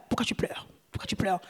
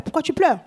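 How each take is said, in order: First: Breathed, unvoiced question to Jesus; hushed whisper. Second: Said in the usual way. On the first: Shown as a demonstration. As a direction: whisper it tenderly, almost to yourself.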